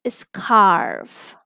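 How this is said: The vowel is followed by an r sound. "American pronunciation"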